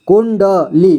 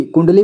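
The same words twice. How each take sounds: First: कुंडली split as कुं-ड-ली with small gaps; syllable-by-syllable reading. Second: Said in the usual way. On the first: Shown as a demonstration. Teacher building the word for learners, split as कुं-ड-ली. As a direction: break कुंडली into its three parts. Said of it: "कुंडली पढ़ेंगे इसे". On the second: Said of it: "पढ़ेंगे इसे".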